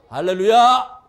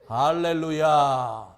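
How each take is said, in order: First: The word is said a little faster. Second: The word is said at a slow pace. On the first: "그 다음에는 조금 빨라져요" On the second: "이렇게 하는 거야"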